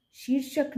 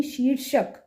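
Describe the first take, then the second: First: शीर्षक with a short शि, pitched higher; wrong short vowel. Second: शीर्षक with a long ई in शी; correct long vowel. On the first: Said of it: "शीर्षक नहीं". (शीर्षक में 'शि' छोटा बोलें) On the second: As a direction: stretch शी in शीर्षक. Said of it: "बड़ी ई वाले". (शीर्षक में 'शी' लंबा बोलें) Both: Shown as a demonstration.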